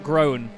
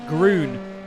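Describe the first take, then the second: First: The vowel sounds like 'oh' in grown. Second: The vowel sounds like 'oo' in moon. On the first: The speaker calls it wrong. "not grown, like we've been saying" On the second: The speaker calls it right. "it's groon"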